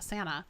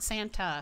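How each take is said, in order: First: The T sound is dropped entirely. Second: The T sound is clearly pronounced. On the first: "I'm not saying the T in Monterey at all. Or Santa Monica, I'm literally saying Santa" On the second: "not Santa"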